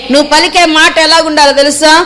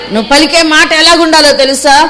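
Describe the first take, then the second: Both takes have the same delivery.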